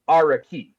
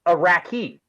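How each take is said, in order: First: The name does not sound like the word Iraqi. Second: The name sounds just like the word Iraqi. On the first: The speaker calls it right. "the way I try I try to do it" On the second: The speaker calls it wrong. "with that pronunciation, you would call the people Iraqi"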